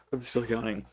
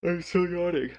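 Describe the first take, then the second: First: Said in the usual way. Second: Talking through a real yawn, pitch lifted; words stretched by a yawn. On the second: Real, not acted. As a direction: say it mid-yawn, higher.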